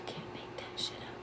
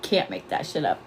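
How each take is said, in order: First: Unvoiced, hushed disbelief; whisper. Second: Said in the usual way. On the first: Real, not acted. Streamer stunned by ghost app answer, whispered.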